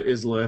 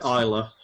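First: The word is said with every letter pronounced. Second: The word is said without pronouncing every letter. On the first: The speaker calls it wrong. "Please don't say Islay" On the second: The speaker calls it right. "Please say Isla"

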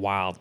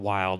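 First: It is said in a Texas accent. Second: It is said in a plain accent.

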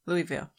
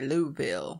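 First: It is pronounced the way outsiders say it. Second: It is pronounced the way locals say it. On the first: The speaker calls it wrong. "but they don't say it like that" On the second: The speaker calls it right. "They say Louisville"

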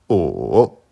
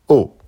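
First: The pitch dips low, then rises. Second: The pitch falls sharply from high to low. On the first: "Troisième ton" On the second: "Quatrième ton"

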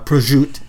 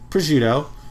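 First: It is said in an Italian-American pronunciation. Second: It is said in a standard American pronunciation.

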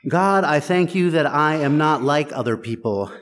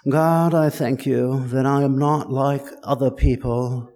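First: It is said in the speaker's plain everyday accent. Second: It is said in a posh royal British accent.

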